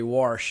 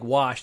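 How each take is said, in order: First: The word is said with an R sound. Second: The word is said without an R sound. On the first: "they say wash" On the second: "instead of saying wash"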